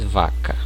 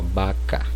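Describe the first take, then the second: First: The word begins with a v sound. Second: The word begins with a b sound. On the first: This is the Portuguese pronunciation. "No português" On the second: This is the Spanish pronunciation. "A pronúncia será equivalente à letra B"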